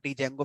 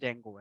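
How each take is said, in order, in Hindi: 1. यह एक अलग 'dee' अक्षर से शुरू होता है। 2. यह सीधे 'j' ध्वनि से शुरू होता है। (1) "जिसको कुछ लोग डी जेंगो प्रोनाउंस करते हैं" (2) "उसका सही प्रोनाउंसिएशन जेंगो है"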